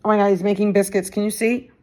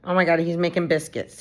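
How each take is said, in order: First: Excited. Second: Said in the usual way. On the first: Real, not acted. Delighted by the cat.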